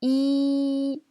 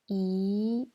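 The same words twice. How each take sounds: First: The pitch stays high and level. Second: The pitch rises from middle to high. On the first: "C'est le premier ton" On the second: "C'est le deuxième ton"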